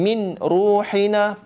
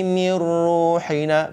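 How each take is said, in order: First: The n is sounded clearly before the r. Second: The n merges into the r without nasalization. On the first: The speaker calls it wrong. "bacaan min ruhina pun tidak betul" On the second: The speaker calls it right. "nun mati masuk kepada huruf ra tanpa dengung"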